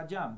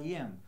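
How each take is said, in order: First: The words are slurred into one sound. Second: The two words are said clearly apart. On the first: The speaker calls it wrong. "no debe ser a jam" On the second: The speaker calls it right. "debe ser a I am"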